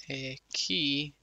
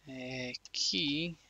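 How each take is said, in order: Both takes have the same delivery.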